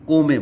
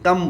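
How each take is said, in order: First: A vowel is heard after the m. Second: No vowel is heard after the m. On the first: The speaker calls it wrong. "ना कि को में बोला जाएगा" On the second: The speaker calls it right. "कम बोला जाएगा / ई भी silent होता है"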